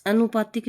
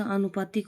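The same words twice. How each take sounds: First: आनुपातिक with short opening 'a'; mispronounced आनुपातिक. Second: Said in the usual way. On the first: Shown as a demonstration. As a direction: say आनुपातिक as a-nu-paa-tik. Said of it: "आनुपातिक नहीं होता". (आनुपातिक को 'अनुपातिक' बोलें) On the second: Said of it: "आनुपातिक होता है".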